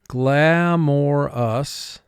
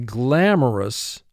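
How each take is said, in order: First: The middle syllable is said fully as more. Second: The middle syllable is reduced and quick.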